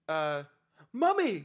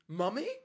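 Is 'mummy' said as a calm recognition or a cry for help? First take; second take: cry for help; calm recognition. First: It sounds like a desperate cry for help. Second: It sounds like calmly recognizing someone. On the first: The speaker is calling out for help. The speaker calls it right. "it should be like a exclamation or a cry for help" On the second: The speaker is greeting someone recognized. The speaker calls it wrong. "he goes"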